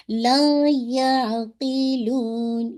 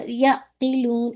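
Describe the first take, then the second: First: لا یعقلون very slow, the یا fatha clear and the ع merged smoothly; correct balanced ain. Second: یعقلون with a sharp jolt on the ع, slow; wrong jerked ain. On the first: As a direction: recite لا یعقلون with a smooth, middle ع. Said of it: "تو پھر آپ کو کیسے پڑھنا ہے؟". (لا یعقلون میں عین کو توسط کے ساتھ نرمی سے ملا کر، صحیح) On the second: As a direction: jerk the ع in یعقلون hard. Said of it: "ایسے نہیں". (یعقلون میں عین پر جھٹکا دے کر، غلط انداز) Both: Shown as a demonstration.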